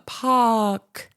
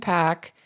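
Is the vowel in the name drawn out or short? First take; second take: drawn out; short. First: The vowel is drawn out and emphasized. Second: The vowel is short and plain. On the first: The speaker calls it wrong. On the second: The speaker calls it right.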